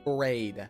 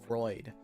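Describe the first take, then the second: First: The vowel sounds like ay. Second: The vowel sounds like oy. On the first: The speaker calls it right. "but my name is Frayed" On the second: The speaker calls it wrong. "someone called me Freud, like like Sigmund Freud"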